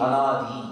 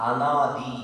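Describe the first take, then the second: Both takes have the same delivery.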